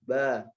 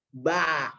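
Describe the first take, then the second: First: The vowel is slack and carelessly opened. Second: The vowel is opened very wide, exaggerated. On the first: The reciter is making it too easy. "Yang gampang-gampangin" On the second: The reciter is making it too hard. "Kalau nyusah-nyusahin, misalkan tadi dibuka lebar-lebar banget"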